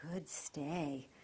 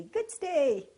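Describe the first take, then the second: First: Soft, low, calm good stay; calm praise. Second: High, loud excited Good stay; overexcited Good stay; excited praise. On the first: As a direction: praise gently to keep him down. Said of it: "keep your voice nice and calm". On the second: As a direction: hype the dog up too much. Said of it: "you might get the dog up". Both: Shown as a demonstration.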